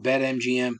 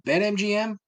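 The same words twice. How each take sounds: First: Said in the usual way. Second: BetMGM jumped up high in mock hype; mocking the ad's hype; mock ad announcer. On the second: Shown as a demonstration. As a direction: sing out BetMGM like a cheesy jingle. Repeating sponsor name mockingly.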